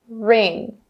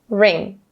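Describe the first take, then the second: The two takes are said the same way.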